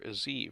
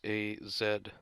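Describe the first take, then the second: First: The letter is said the American way, zee. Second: The letter is said the British way, zed.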